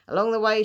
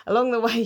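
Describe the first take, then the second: First: Put-on Alabama accent. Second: Said in the usual way. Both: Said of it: "I don't know why I did that accent".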